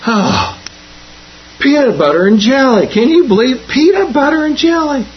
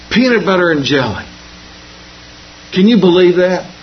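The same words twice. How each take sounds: First: Higher and higher, mock-outraged schoolkid; exasperated kid. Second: Lightly voiced kid, mild disappointment; a hint of a kid sighing at his lunch; grumbling schoolkid. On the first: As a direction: build the kid's disbelief to a hammed-up peak. Kid complains third day, building. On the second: Kid opens lunch, complains.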